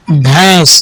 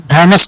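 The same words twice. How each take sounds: First: भैंस as one syllable, "bhãis"; correct nasal reading. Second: भैंस misread in two syllables as "bhai-nas"; wrong reading. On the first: Teacher answering her question for pupils, भैंस in one nasal syllable. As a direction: nasalise the vowel of भैंस, no separate n. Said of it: "यहाँ पे ये नून बुनना है". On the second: Teacher warning pupils off a misreading, भैंस as "bhai-nas". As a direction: sound the noon in भैंस as a full n plus vowel. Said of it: "भैंस नहीं पढ़ेंगे". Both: Shown as a demonstration.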